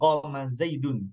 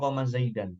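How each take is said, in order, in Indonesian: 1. Kata terakhir berakhir dengan bunyi -un. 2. Kata terakhir berakhir dengan bunyi -an. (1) "kalau fa'il, pelaku itu dhammah" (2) "bukan qoma zaidan"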